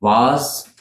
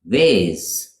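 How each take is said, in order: First: "Vase" as vahz, rising; British "Vase", rhyming with spas; British pronunciation. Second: "vase" as vayz, falling; long A in "vase"; American "vase" with an ay vowel; American pronunciation. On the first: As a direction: open ah in "Vase". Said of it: "in the U K". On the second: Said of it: "in the U S". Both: Shown as a demonstration.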